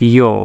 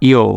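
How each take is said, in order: No difference in how they are said.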